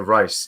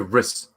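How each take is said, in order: First: The vowel is long, like 'Rice'. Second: The vowel is short, like 'Riss'. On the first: Another channel said it this way. "I heard another channel say Rice" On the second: This is how the speaker used to say it. "I used to say Riss"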